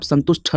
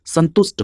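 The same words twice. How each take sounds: First: संतुष्ट ending in a breathed ठ, santush-tha; wrong aspirated ending. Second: संतुष्ट ending in plain ट, santusht; correct unaspirated ending. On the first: Teacher showing what students wrongly write, संतुष्ट said with ठ. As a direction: end संतुष्ट on "tha" with a puff. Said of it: "नहीं गलत हो जाएगा". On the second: Teacher correcting students' spelling, संतुष्ट said with plain ट. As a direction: end संतुष्ट on a hard T without breath. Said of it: "वहां पर भी ट होता है". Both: Shown as a demonstration.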